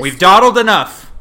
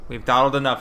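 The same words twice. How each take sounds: First: High, loud show-host call; announcer voice. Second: Said in the usual way. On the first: Pretend. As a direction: boom it out like a host. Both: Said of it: "ready for real podcast time now".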